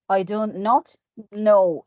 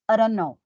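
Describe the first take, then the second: First: Each word is said separately and clearly. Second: The words run together quickly and reduced. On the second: "See how is it difficult and fast in connected speech"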